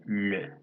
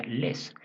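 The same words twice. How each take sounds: First: "le" said with a silent s, a rounded vowel like lø; correct le. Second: "les" with the final s sounded and held; wrong les. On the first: Teacher giving students the right sound, silent s. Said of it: "Se pronuncia le". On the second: Teacher warning students against the wrong reading, s sounded. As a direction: hiss the s at the end of "les". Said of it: "no se pronuncia les". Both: Shown as a demonstration.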